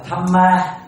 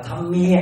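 First: Said in the usual way. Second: Thăm Mia, with an added i glide before the final a; Khmer-style pronunciation. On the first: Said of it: "Ví dụ như mình đọc là Thăm Ma". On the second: Shown as a demonstration. Monk shows students how Khmer temples chant Thăm Ma. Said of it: "thì họ đọc là Thăm Mia".

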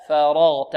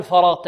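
First: فرغت with a thin ف before heavy ر; correct light faa. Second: فرغت with the opening ف wrongly thickened; wrong heavy faa. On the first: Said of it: "لا، فاء". (نطق فرغت بفاء مرققة) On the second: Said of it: "لا نقول فرغت". (نطق فرغت خطأً بتفخيم الفاء) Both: Shown as a demonstration.

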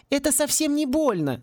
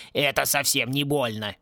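First: Put-on high reassuring girl's voice. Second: A gruff mock echo of the girl; mocking mimicry. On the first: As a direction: promise it won't hurt, higher. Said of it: "заверила Мергиона". (высокий голос, успокаивающе) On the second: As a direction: parrot her words back in scorn. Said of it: "передразнил её Клинч". (передразнивая, с издёвкой) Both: A narrator's reading.

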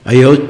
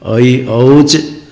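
First: ऐ, औच squeezed into one short word; vowels clipped together. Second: ऐ, औच very slow and separate, crisp च; final च sounded. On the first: Teacher showing the unclear way, ऐ, औच merged short. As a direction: run ऐ straight into औच, quick and loud. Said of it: "पता नहीं चलेगा". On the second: Teacher showing the right way, ऐ, औच drawn out clearly. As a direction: stretch each vowel and release the च in औच. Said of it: "च आ जाना चाहिए". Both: Shown as a demonstration.

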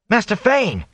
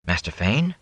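First: High, urgent call across a crowd; shout. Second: Tentative question, rising at the end; hesitant. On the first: Rand hails the fleeing peddler in the street, shouting. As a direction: call out high to catch his attention. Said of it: "he shouted". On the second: Rand approaches the cornered peddler, hesitantly. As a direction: ask it carefully, unsure. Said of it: "Rand said hesitantly". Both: A narrator's reading.

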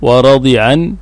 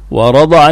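First: ورضعا as wa-radi'an; ورضعا with the middle letter in kasra. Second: ورضعا as wa-rada'an; ورضعا with the middle opened by fatha; voweled middle letter. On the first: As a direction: say ورضعا with a short "i" on the Dad. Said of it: "بكسر العين". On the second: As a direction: say ورضعا with a short "a" on the Dad. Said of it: "بالتحريك". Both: Shown as a demonstration.

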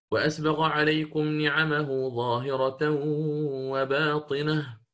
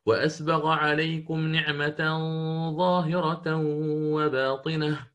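First: Hafs recitation. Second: Slow recitation with "نعمة" said as "نعمةً", singular with ta; Shu'ba reading. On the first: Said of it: "في قوله تعالى في سورة لقمان". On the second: Teacher demonstrates Shu'ba's wording, slow chant. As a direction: recite "نعمة" with a ta ending, not "نعمه". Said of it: "يقرأ". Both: Shown as a demonstration.

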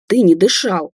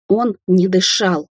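First: Mildly outraged exclamation at normal pace; indignant cry. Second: Slow, each word separated; pleading insistence. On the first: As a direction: throw it out as an indignant accusation. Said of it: "выкрикнула возмущённая Дина". (возмущённый выкрик) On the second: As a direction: stretch it out as a plea to be believed. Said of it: "Дина умоляюще посмотрела на Андрея". (медленно, умоляюще) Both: A narrator's reading.

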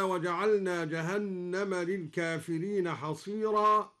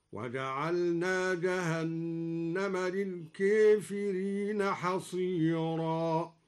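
First: Said in the usual way. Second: Very slow chant, للكافرين with ka bent toward ke; imala on الكافرين. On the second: Shown as a demonstration. Teacher chants al-Duri's reading, للكافرين as lilkefirin. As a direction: recite للكافرين as lilkefirin, slowly. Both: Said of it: "أمال الكافرين هكذا".

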